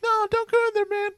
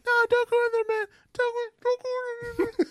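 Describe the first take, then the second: First: Very high-pitched dummy warning; Valentino. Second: High-pitched dummy voice, muffled and fading; Valentino. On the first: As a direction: squeal a clear, open warning as the dummy. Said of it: "He has a very high-pitched voice". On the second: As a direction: squeal as if the car door shuts on you, trailing into a muffle. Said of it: "made the voice muffled". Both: Retold or imitated.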